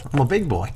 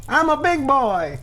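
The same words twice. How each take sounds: First: Said in the usual way. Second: Put-on much higher, childlike boast; high mock-proud. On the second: Shown as a demonstration. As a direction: say it like a proud little kid. Repeats phrase higher.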